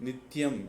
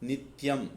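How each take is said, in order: The two takes are said the same way.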